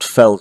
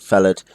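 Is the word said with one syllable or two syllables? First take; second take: one syllable; two syllables. First: The word is said short, in one syllable. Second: The word is said long, in two syllables. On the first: The speaker calls it right. "we pronounce these short felled" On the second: The speaker calls it wrong. "rather than felled"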